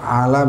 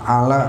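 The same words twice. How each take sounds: No difference in how they are said.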